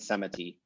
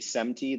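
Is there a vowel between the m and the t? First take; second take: yes; no. First: A short vowel is heard between the m and t. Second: No vowel is heard between the m and t. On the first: "than semiti" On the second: "much more likely to say semti"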